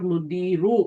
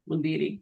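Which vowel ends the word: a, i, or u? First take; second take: u; i. First: The word ends in an u vowel. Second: The word ends in an i vowel. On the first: The speaker calls it wrong. "Not मुदीरू" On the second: The speaker calls it right. "the noun after ma has e ending"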